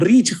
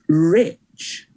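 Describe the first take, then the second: First: The name is said with a Spanish accent. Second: The name is said with an English accent. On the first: This is how people in Spain say the name. "a lot of people in Spain call me Rich" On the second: This is the name's own pronunciation. "excuse me, it's Rich"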